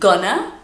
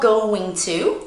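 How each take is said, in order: First: The words are shortened and run together. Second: Both words are said fully and separately. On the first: "it's just gonna" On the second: "it's not going to"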